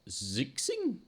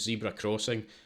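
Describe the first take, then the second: First: The name sounds like two syllables, zix-ing. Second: The name sounds like the words zebra crossing. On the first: The speaker calls it wrong. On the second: The speaker calls it right.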